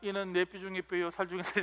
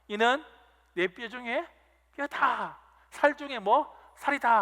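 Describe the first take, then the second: First: It is said flatly, without excitement. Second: It is shouted with joyful excitement.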